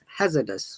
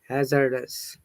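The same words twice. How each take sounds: First: It is said without an r sound. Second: It is said with an r sound. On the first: "In British I P A, remember that there is no R sound" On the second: "But American"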